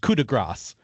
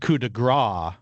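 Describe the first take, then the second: First: The final s of grace is pronounced. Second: The final s of grace is silent. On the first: A final, finishing blow. The speaker calls it right. "It's coup de grace, uh, and that is like the final blow" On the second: A dollop of fat. The speaker calls it wrong. "it is not, however, a coup de grace, which I think I learned from you would be a dollop of fat"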